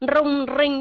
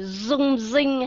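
First: The R at the start is rolled. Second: The R at the start sounds like Z. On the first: "chúng ta không có nói như vậy" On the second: "họ dùng cái chữ Z"

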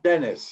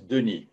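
First: The name is said the English way. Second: The name is said the French way. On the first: This is how others mispronounce the name. The speaker calls it wrong. "some English people or some German people, they cannot speak Denis. They say Denis" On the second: This is how the owner of the name says it. The speaker calls it right. "my name is Denis. A French name"

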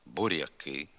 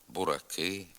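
First: The r sound is soft, palatalized. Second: The r sound is hard, not palatalized. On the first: This is the standard literary pronunciation. "приголосний Р вимовляється м'яко" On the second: This is a dialect pronunciation. "звук «р» послідовно твердий"

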